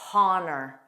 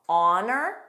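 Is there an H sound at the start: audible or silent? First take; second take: audible; silent. First: The word begins with an audible breathy H sound. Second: The word begins with a vowel, no H sound. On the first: The speaker calls it wrong. "with an H, which is incorrect" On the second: The speaker calls it right. "silent, ah, ah"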